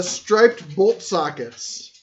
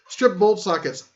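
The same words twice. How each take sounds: First: STRIPED with a long I, like stripes; misread as striped. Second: STRIP with a short I, as in trip; corrected to stripped. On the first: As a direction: read "striped" with a long eye vowel. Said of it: "oh, my striped, stripped". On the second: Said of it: "stripped. There we go". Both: Real, not acted.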